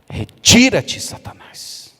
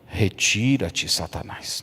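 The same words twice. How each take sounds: First: It is said loudly, almost shouting. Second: It is said in a calm, low voice. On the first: The speaker calls it right. "Foi quase que gritando" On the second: The speaker calls it wrong. "Jesus não falou com esse tom que eu estou falando aqui"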